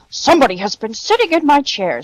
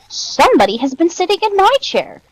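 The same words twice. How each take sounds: First: It is said in a big, gruff, deep voice. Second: It is said in a medium, less gruff voice. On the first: "in his great, gruff voice" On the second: "in her middle-sized voice"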